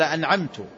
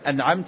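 First: The word ends with the vowel u. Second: The word ends with the vowel a. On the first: The reciter is the one who bestowed favor. The speaker calls it wrong. "قال أنعمت بالضم" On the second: The one addressed is the one who bestowed favor. The speaker calls it right. "بدل أنعمت"

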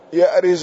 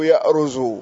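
First: The r is followed by an i vowel. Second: The r is followed by a u vowel. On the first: "وكسر الراء" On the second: "وقد تضم"

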